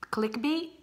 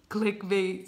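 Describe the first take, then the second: First: "clickbait" with a rising end; questioning. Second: "Clickbait" as a settled statement; confirming. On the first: Tries out a YouTube term. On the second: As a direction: confirm "Clickbait" without the questioning lift. Confirms the YouTube term. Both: Real, not acted.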